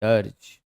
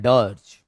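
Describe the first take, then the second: First: The vowel sounds like 'er' as in 'her'. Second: The same.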